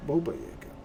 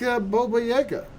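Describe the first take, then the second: First: Said in the usual way. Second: Baba Yaga lilted much higher; a playful high singsong on Baba Yaga; sing-song. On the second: Pretend. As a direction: chant Baba Yaga like a spooky rhyme. Sing-song naming of the monster.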